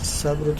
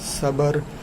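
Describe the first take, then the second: First: The b and r form a cluster. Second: A vowel is inserted between b and r. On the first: The speaker calls it right. "जबकि इसका तलफ़ुज़ ये है सब्र" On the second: The speaker calls it wrong. "अगर हम इसको पढ़ेंगे ना सबर"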